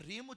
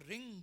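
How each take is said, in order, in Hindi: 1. यह शब्दांश बंद m ध्वनि से समाप्त होता है। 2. यह शब्दांश नासिक्य ng ध्वनि से समाप्त होता है। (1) "कब म लगेगा" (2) "कब ग लगेगा"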